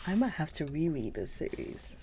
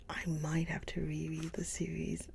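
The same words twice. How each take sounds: First: Said in the usual way. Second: Whispered. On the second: Real, not acted. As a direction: repeat it in a soft whisper. Repeats it softly.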